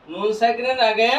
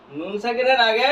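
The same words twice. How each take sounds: The two takes are said the same way.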